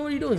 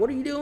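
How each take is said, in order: First: Even higher panicked repeat; mom freaking out again. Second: High, panicky mom voice; mom freaking out. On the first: Mom repeating her panic at dad, higher still. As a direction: push the panic up a notch. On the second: Mom panicking at dad's reckless driving, high and shrill. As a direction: squeal it like a scared passenger. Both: Retold or imitated. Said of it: "My mom's freaking out".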